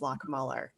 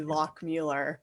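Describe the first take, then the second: First: The name is said the American way. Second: The name is said the German way.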